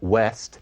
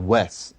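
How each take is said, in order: First: It is said with a Standard English pronunciation. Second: It is said with a simpler Black English pronunciation. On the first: "west in Standard English"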